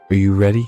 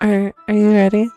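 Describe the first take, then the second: First: It is said in the reader's own voice. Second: It is said in Yuri's put-on voice.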